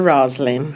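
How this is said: The name is said with English pronunciation. This is the original form of the name. "Na realidade é o nome inglês, seria Roslyn"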